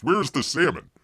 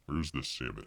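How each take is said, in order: First: Said in the usual way. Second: Softer, lower repeat; quiet. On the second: Shown as a demonstration. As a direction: mutter it to yourself. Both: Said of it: "repeated quieter".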